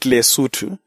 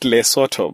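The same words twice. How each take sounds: First: Pronounced the way its own people say it. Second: Pronounced the way the letters suggest it. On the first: "they call it Lesotho" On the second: This is how outsiders name it from the spelling. "most of us call it Lesotho because of the way it is spelled"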